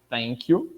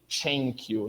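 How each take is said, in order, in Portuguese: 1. O primeiro som tem a língua entre os dentes. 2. O primeiro som é uma oclusiva liberada em fricativa. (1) "a variante interdental" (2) "a variante africana, que é uma espécie de"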